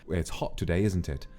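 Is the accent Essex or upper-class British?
upper-class. The h is sounded and the t's are clear. The speaker sounds like a traditional television presenter. "You would pronounce the H. ... very sort of traditional, sort of upperclassman British accent"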